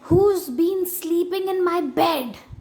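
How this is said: The voice is deep and gruff. "Growled Father Bear in his great gruff voice"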